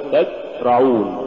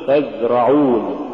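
First: تزرعون with the z cut short; clipped z and a gap in تزرعون; choked-off zay. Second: تزرعون with the z sound running on; continuous voiced z in تزرعون; soft flowing zay. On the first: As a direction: stop dead on the z of تزرعون. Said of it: "ولا تقل". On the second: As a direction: let the z flow in تزرعون. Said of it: "قل". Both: Shown as a demonstration.

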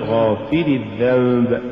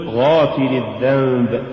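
First: غافر الذنب with too much stress on the fa; غافر الذنب, accent shifted onto فِ; overstressed fa. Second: Said in the usual way. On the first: Shown as a demonstration. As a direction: punch the فِ in غافر. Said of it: "ولا تقل". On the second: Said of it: "قل".

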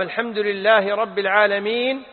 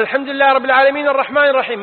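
First: Verse recited with a clear pause at its end; imam pausing after verse. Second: "الحمد لله رب العالمين الرحمن الرحيم" rattled off fast with no stop between verses; verses run together. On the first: Showing students how the imam stops after each verse. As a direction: read "الحمد لله رب العالمين" then stop before the next verse. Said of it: "وسكت، قل". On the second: Showing students an imam who never pauses, fast recitation. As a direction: rush straight from one verse into the next, fast. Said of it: "ما سكت بين الآيتين". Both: Shown as a demonstration.

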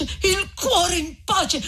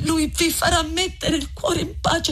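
First: Very slow, higher, crying through it; voice breaking. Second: Lucia pleading. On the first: Lucia repeating her plea to Renzo, slow and crying. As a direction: let the repeat dissolve into tears. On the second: Lucia repeats the phrase. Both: Acted.

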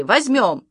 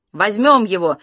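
First: A higher repeated cry; a second, higher eager cry; shouting. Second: Louder shout of joy; a loud eager cry. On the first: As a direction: echo the shout with more pitch. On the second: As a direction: call out eagerly to the family. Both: A narrator's reading. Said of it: "мы с мамой закричали".

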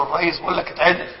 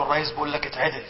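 First: Said in the usual way. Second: The prime minister murmuring into the sheikh's ear; hushed whisper. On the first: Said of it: "وهمس في أذن". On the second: Retold or imitated. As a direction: murmur "اتعدل" softly, as into someone's ear. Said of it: "وهمس في أذن الشعراوي".

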